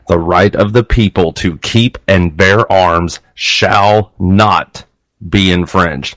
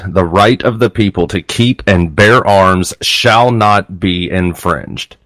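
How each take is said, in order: First: The last part is said with strong emphasis. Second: The last part is said without special emphasis.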